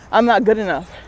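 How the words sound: The voice falls at the end like a statement. The thought is accepted as true. "it would be a statement"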